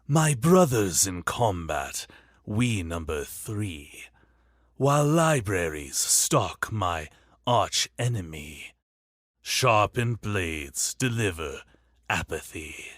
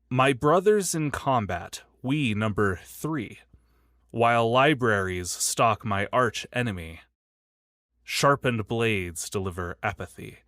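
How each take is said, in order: First: It is read in a put-on curator's voice. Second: It is read in the speaker's normal voice.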